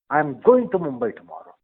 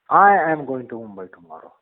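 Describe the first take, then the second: First: The stress falls on the word I. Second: The same.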